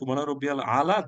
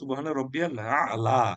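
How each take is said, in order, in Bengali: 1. শেষ শব্দটি প্রিপজিশন 'upon'-এর মতো শোনাচ্ছে। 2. শেষ শব্দটি সুপারলেটিভ 'highest'-এর মতো শোনাচ্ছে। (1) "দেন ইটস প্রবলেম" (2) "এটার সঠিক উচ্চারণ"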